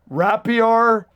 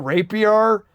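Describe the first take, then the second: First: The first syllable does not sound like 'rape'. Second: The first syllable sounds like 'rape'. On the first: The speaker calls it right. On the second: The speaker calls it wrong.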